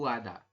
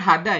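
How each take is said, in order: First: The word begins without an h sound. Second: The word begins with an h sound. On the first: "Tapi Anda membacanya adalah gongbu ada" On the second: "Nah ini kan hada ya"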